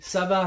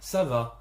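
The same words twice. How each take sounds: First: It sounds irritated and rude. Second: It sounds polite and friendly. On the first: The speaker seems upset. The speaker calls it wrong. "this sounded quite rude to me and conveyed a certain emotion that was irritation" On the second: The speaker is being courteous. The speaker calls it right. "in order to be polite, you see, up and down"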